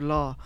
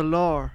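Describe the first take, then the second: First: Said in the usual way. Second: "law" with an R on the end, like "lar"; British added R. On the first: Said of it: "instead of law". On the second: Shown as a demonstration. Explaining British accents to co-hosts, "law" said as "lar". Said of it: "you'd say lar".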